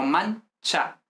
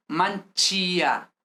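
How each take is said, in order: First: MANCHA slowly in two syllables, no i heard; silent i. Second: MANCHÍA in three syllables, stress on a sounded í; wrong stressed i. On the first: Teacher corrects for students, slow MANCHA with silent i. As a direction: say "mancha" as MAN-cha, stressed on the first syllable. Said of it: "La I no se pronuncia realmente". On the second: Teacher shows students the mistake, MANCHÍA with a stressed í. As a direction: break "manchía" into man-CHEE-a. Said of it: "no es manchía". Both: Shown as a demonstration.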